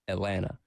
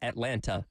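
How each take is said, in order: First: The second t sound is dropped. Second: The second t sound is clearly pronounced. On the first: The speaker calls it right. "Same thing with Atlanta. It's Atlanta" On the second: The speaker calls it wrong. "It's not Atlanta"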